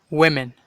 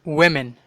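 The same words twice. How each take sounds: No difference in how they are said.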